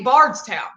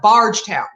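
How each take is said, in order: First: The middle keeps a clear 'ds' sound. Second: The middle sounds like a soft 'j' sound. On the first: The speaker calls it right. "Just say Bardstown" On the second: The speaker calls it wrong. "people call it Bargetown"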